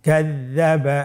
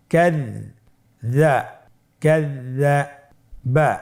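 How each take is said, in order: First: Said in the usual way. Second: ক্যাযযাবা drawn out syllable by syllable; slow spelled-out reading. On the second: Shown as a demonstration. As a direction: stretch ক্যাযযাবা slowly, each sound held. (ধীরে টেনে ক্যাযযাবা উচ্চারণ) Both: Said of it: "আমার সাথে বলুন".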